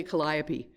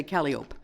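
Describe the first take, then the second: First: Calliope said the proper way, stress on the second syllable, kuh-LY-uh-pee; correct pronunciation. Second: Calliope said the way people get it wrong, stressed at the start like CAL-ee-ope; common mispronunciation. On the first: Shown as a demonstration. Telling the congregation the correct word, calliope as kuh-LY-uh-pee. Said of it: "you don't know how many times when you write calliope". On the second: Retold or imitated. Teasing people who misread the word, calliope as CAL-ee-ope. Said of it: "people say calliope".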